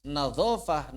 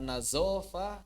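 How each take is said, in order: First: "Nadhofah" with a heavy interdental dh; correct emphatic dh. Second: "nazofah" with a buzzing z in the middle; slow "nazofah", z replacing the interdental dh; mispronounced as z. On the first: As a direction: say the dh of "Nadhofah" thick, tongue between the teeth. ("Nadhofah" dengan bunyi zha' tebal, lidah di antara gigi) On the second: ("nazofah" dengan bunyi z biasa) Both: Shown as a demonstration. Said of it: "mengucapkan hadza menjadi haza".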